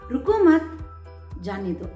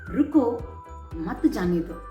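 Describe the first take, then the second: First: The pause comes right after 'mat'. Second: The pause comes right after 'ruko'.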